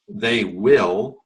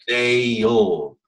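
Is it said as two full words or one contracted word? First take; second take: full; contracted. First: It is said as two separate full words. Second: It is said as one contracted syllable. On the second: "we put words together, right, and form them into one word, it becomes"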